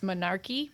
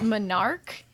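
First: The word ends with an added ee vowel. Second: The word ends on a consonant sound. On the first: The speaker calls it wrong. "I always like to pronounce the E at the end" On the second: The speaker calls it right. "I know how it's really said"

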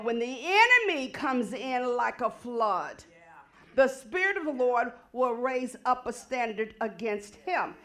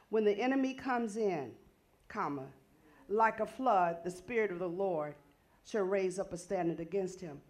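First: There is a break after 'like a flood'. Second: There is a break after 'comes in'.

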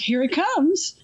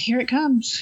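First: It is said big and over the top. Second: It is said flat, bored and tired.

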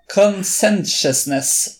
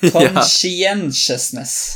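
First: One syllable of the word is left out. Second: All five syllables of the word are said. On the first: The speaker calls it wrong. "Du mangler en stavelse" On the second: The speaker calls it right. "riktig antall stavelser"

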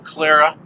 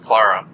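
First: The name is said with a less British sound. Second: The name is said with a more British sound. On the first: "I'd probably go Clara" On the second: "a little more Britishy is Clara"

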